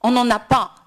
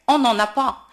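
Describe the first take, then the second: No difference in how they are said.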